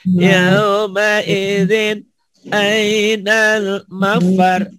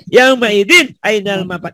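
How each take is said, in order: First: The phrase is recited calmly without snapping. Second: The phrase is snapped out loudly and forcefully. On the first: This is how the Quran should actually be read. "Quran tak boleh dibentak" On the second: It is only a drill to train memory. "latih bentak ya"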